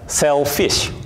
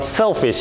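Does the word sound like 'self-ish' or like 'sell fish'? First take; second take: sell fish; self-ish. First: It sounds like two words, sell fish. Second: It is said as one ordinary word.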